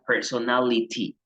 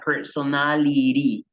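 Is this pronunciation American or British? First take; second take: British; American. First: The T is pronounced as a crisp, strong T. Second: The T sounds like a soft, quick R. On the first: "Si es más británico, el sonido de la T es fuerte" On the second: "la T pasa a tener un fonema como de, de R suave"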